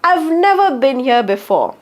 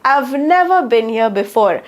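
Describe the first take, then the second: No difference in how they are said.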